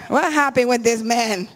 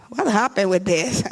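First: Asking through a real laugh; amused laughing question. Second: Said in the usual way. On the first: Real, not acted.

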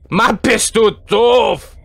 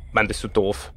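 First: Slow, drawn-out shout; shouted insult. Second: Low, soft grumble; muttered insult. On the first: Player berating Granny, slow exaggerated shout. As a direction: shout it word by word. Repeats insult loudly at game character. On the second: Player grumbling at Granny, muttered. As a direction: mutter it under your breath. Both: Real, not acted.

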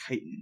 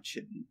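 First: Chitin said KY-tin, hard k; correct pronunciation. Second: Chitin said CHIT-in, ch as in chip; mistaken pronunciation. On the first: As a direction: start chitin with a k sound. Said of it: "I keep forgetting it's chitin". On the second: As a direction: start chitin with a soft ch sound. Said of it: "I keep forgetting it's chitin, not chitin". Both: Shown as a demonstration.

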